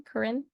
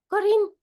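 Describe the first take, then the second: First: "Corinne" said her own way, short second vowel; correct name pronunciation. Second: "Corinne" mispronounced, high and loud with an altered first vowel; wrong pronunciation. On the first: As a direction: say "Corinne" as kuh-RIN. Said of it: "That's how you say my". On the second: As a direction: punch out a wrong "Corinne", like KAH-tin, pitched up. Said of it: "You don't say Corinne or". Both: Shown as a demonstration.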